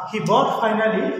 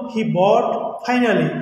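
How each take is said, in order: First: Said in the usual way. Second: Slow, spelled-out example sentence; slow example read. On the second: Shown as a demonstration. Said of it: "যেমন". (ধীরে উদাহরণ পড়া)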